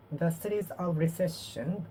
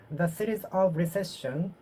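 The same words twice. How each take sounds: The two takes are said the same way.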